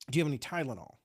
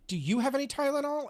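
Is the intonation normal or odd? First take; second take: normal; odd. First: It is said with a normal intonation. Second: It is said with an odd intonation.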